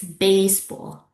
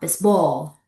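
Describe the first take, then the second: First: The stress is on the first syllable. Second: The stress is on the second syllable. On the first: The speaker calls it right. "No, it's" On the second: The speaker calls it wrong.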